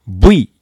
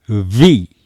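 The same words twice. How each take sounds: First: It starts with both lips closed, like b. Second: It starts with the lower lip on the teeth. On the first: The speaker calls it wrong. "V ではないですよ" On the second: The speaker calls it right. "下唇を噛みながらV と発音します"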